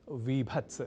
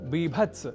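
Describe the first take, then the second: First: The word begins with a v sound. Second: The word begins with a b sound. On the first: The speaker calls it wrong. "न की विभत्स" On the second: The speaker calls it right. "बीभत्स रस"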